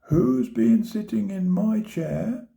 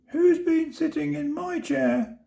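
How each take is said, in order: First: It is said in a medium-sized voice. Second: It is said in a tiny, high voice. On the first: "she said in her middle-sized voice" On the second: "said the baby bear in his teeny tiny voice"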